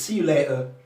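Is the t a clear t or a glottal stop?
glottal stop. The t is replaced by a glottal stop. "What you hear from the Cockney accent is"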